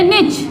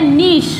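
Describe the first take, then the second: First: Short 'i' vowel, ending in a 'ch' sound. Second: Long 'ee' vowel, ending in a 'sh' sound. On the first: "American English में बोलते हैं" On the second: "British English में इसको बोला जाता है"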